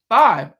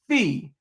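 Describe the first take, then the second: First: The vowel sounds like 'eye', as in fie. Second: The vowel sounds like 'ee', as in fee. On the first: This is the English and math pronunciation. "in English and math is pronounced five" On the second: This is the Greek pronunciation. "Greek pronounced fee"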